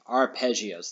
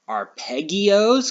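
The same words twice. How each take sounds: First: The double g is a soft j sound. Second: The double g is a hard g sound. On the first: The speaker calls it right. "Two G's together makes a J sound" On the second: The speaker calls it wrong. "because of the two G's?"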